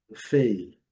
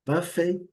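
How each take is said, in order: First: Buffet as buf-AY, loud falling end; American second-syllable stress. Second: Buffet as BUF-ay, high and loud start; British first-syllable stress. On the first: Teacher applies American rule, end-stressed demo. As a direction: hit the last syllable of buffet. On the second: Teacher applies British rule, front-stressed demo. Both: Shown as a demonstration. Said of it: "na mesma situação".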